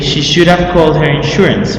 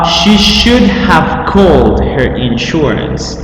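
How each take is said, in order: First: The sentence is said quickly, words run together. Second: The sentence is said at a normal pace.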